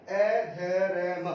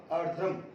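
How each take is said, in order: First: अधरम broken letter by letter, a, dha, ra, ma; very slow, separate sounds in अधरम; spelled out slowly. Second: Said in the usual way. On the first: Shown as a demonstration. (अधरम का हर अक्षर अलग-अलग, बहुत धीरे बोलें) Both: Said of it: "अधरम बोला है".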